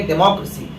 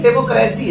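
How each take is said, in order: First: डेमोक्रेसी said the English way, smooth and flowing; English-style pronunciation. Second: डेमोक्रेसी said the Hindi way, each syllable pronounced separately; Hindi-style pronunciation. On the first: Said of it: "English में बोलेंगे तो कहेंगे". (डेमोक्रेसी अंग्रेज़ी लहजे में, flow में) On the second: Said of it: "Hindi में कहते हैं डेमोक्रेसी". (डेमोक्रेसी हिंदी लहजे में) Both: Shown as a demonstration.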